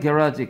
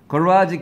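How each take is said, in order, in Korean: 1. 영국식 발음입니다. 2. 미국식 발음입니다. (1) "얘는 B, R, E" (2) "가라지는 A, M, E"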